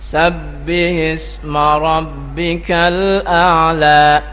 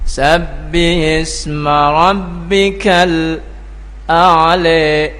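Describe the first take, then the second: First: It is recited in the Hafs an Asim reading. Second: It is recited in the Khalaf an Hamzah reading. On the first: "itu kalau orang baca, ya, Hafiz an Asim" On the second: "kalau orang membaca dari Khalaf an Hamzah, tentu dia bacanya ada sedikit perbedaan"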